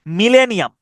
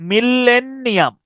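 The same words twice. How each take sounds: First: Said in the usual way. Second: মিলেনিয়াম slow and higher, doubled l and n; drawn-out spelling pronunciation. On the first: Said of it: "এটার আপনি উচ্চারণটা". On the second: Shown as a demonstration. Teacher shows the double letters, stretching each syllable. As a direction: stretch মিলেনিয়াম as "mil-len-ni-am". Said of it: "এভাবে করতে পারেন".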